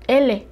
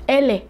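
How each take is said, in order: First: The letter is said with a Spanish sound. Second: The letter is said with a Spanish sound.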